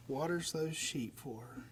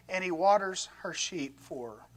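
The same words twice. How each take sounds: First: Much softer, lower, dreamy savouring; mock romantic. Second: Said in the usual way. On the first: Shown as a demonstration. Preacher teasing the congregation about romance, soft and dreamy. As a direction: swoon over it gently, almost sighing. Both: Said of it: "Isn't that romantic?".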